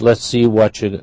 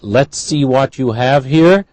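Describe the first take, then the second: First: Words run together quickly in reduced form. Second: Every word is said fully and clearly.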